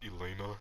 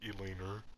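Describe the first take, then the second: First: The name ends without an R sound. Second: The name ends with an added R sound. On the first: The speaker calls it right. "her name's Elena" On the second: The speaker calls it wrong. "I mispronounced her name and like with an R at the end"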